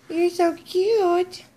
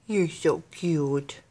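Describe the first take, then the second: First: High, slow, gushing coo. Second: Low, slow, soft adoration; soft cooing. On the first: Owner gushes over dog with toy, high baby talk. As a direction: squeal fondly at your pet, stretched out. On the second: Owner admires dog with new toy, soft cooing. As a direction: murmur fondly to your pet, drawn out. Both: Real, not acted.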